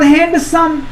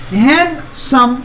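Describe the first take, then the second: First: Said in the usual way. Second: handsome slowly, with a gap after hand; split into syllables. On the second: Shown as a demonstration. Teacher showing it divides in two, split into syllables. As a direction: break handsome into two drawn-out beats. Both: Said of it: "दो हिस्सा में बट रहा है".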